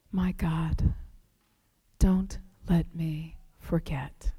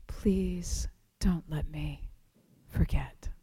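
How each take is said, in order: First: Soft, slow whisper; hushed plea to God; whispered prayer. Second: Even softer, slower whisper; fading whispered plea; whispered prayer. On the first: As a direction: pray it under your breath. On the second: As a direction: let the plea fade to almost nothing. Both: Retold or imitated.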